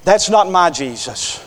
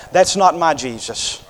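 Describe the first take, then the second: First: Not stressed with a falling close. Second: Not hit firmly; stress on not. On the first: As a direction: hit not and let it fall. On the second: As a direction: lean on the word not. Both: Shown as a demonstration.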